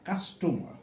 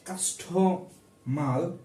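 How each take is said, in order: First: The word ends with an R sound. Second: The word ends with an L sound. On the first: The speaker calls it right. "সে বোঝাতে চাইছে কাস্টমার" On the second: The speaker calls it wrong. "অনেক দোকানদার বলে"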